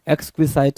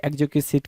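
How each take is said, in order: First: "एक्सक्विसाइट" ending in "site", like "sight"; long-i ending. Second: "एक्जिक्विसाइट" said with a short "sit" ending. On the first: Teacher naming the word both ways for students, "एक्सक्विसाइट" ending in "site". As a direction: say "एक्सक्विसाइट" with an "eye" sound at the end. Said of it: "कुछ लोग एक्सक्विजाइट पढ़ेंगे". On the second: Teacher giving the other reading for students, "एक्जिक्विसाइट" here ending in "sit". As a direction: end "एक्जिक्विसाइट" on "sit", not "site". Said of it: "कुछ लोग पढ़ेंगे". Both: Shown as a demonstration.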